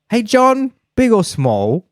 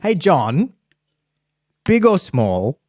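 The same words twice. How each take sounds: First: John runs straight into big or small. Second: There is a clear pause after John.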